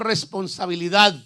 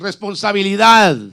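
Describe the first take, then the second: First: The word is said at normal loudness. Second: The word is said more loudly.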